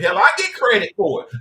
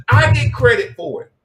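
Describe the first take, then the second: First: Higher, louder brag; raised proud boast. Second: Much higher, louder brag; bigger proud boast. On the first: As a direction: talk it up proudly. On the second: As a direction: shout the brag even bigger. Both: Acted.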